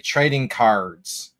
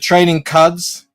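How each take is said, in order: First: The R in the second word is pronounced. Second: The R in the second word is silent. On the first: "That's not a thing. It's unnatural and unwanted" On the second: "I don't pronounce the R"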